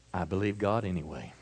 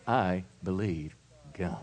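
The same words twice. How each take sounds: First: Softer, lower, settled statement of faith; calm declaration. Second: Soft, low, steady affirmation; quietly and firmly claim it; calm declaration. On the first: Preacher showing the congregation how to answer calmly. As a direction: say it quietly after a deep breath. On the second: Preacher repeating the calm answer to the congregation. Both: Shown as a demonstration. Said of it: "take a deep breath and say".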